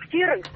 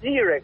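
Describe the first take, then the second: First: The word begins with a ks sound. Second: The word begins with a z sound.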